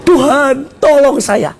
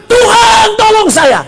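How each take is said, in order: First: Said in the usual way. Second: High, loud cry for help; shouted plea. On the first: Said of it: "Gini-gini". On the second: Acted. Sinking disciple begging God to save him, high shout. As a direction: yell to heaven as if drowning. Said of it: "dia bilang, teriak".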